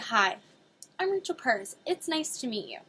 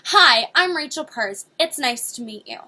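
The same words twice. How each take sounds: First: It is said in a warm, friendly voice. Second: It is said in a forceful, overbearing voice.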